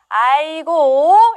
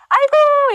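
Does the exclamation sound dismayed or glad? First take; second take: dismayed; glad. First: It is said with sad, exasperated dismay. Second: It is said with warm, happy delight. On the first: The speaker is upset about a disappointment. "슬플 때도 아이고 합니다" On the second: The speaker is happy to see someone. "반가울 때 아이고 이렇게 이야기합니다 ... 반가움의 표시고요"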